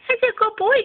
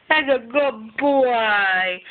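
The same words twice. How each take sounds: First: High squeaky pet praise; talking to a dog. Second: Very slow, drawn-out praise; talking to a dog. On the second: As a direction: draw out every word to the dog. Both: Real, not acted.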